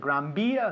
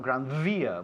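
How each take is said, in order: First: The V is said like a soft B. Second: The V is a buzzing lip-teeth V. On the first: "You say Gran Via" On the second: "not Gran Via"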